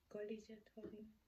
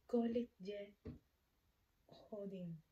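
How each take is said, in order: First: Said in the usual way. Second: Kolik ye hodin word by word, long gap before hodin; broken-up teaching pace. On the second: Shown as a demonstration. Teacher showing learners how to ask the time, word-by-word delivery. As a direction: model Kolik ye hodin in separate pieces, Kolik louder.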